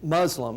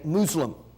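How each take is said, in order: First: It is said the common English way. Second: It is said the way Muslims pronounce it.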